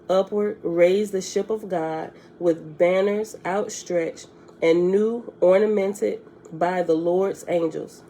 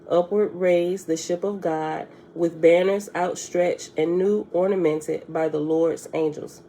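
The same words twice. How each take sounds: First: It is read too slowly. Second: It is read at a faster pace.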